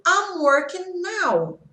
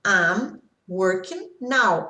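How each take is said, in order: First: Higher and slow, stressing I'm; slow example read with a high start on "I'm". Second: Slow example read low, with "now" falling. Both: Shown as a demonstration. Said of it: "Por exemplo".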